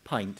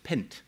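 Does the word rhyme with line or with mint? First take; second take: line; mint. First: The vowel is long, rhyming with line. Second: The vowel is short, rhyming with mint. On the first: This is the normal pronunciation of the word. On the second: The irregular word is regularized, a sign of the disease.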